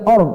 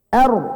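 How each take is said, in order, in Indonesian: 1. Vokalnya diucapkan dengan bibir membulat, dimonyongkan. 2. Vokalnya terbuka dengan bibir tidak membulat. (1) "jangan monyong dari awal" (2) "R, R, enggak or"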